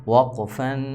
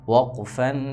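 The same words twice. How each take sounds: The two takes are said the same way.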